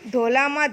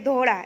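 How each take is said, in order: First: The middle consonant is a plain L. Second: The middle consonant is a retroflex L. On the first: This is the local rural dialect. "અળની જગ્યાએ લ" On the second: This is the standard form. "ધોલા એટલે કે ધોળા"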